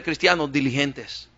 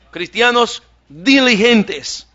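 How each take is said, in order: First: Said in the usual way. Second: Cristianos diligentes drawn out slowly, diligentes louder; slow stress on diligentes. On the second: Shown as a demonstration. Preacher repeats his key phrase, slow and emphatic. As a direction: lean hard and slow on diligentes.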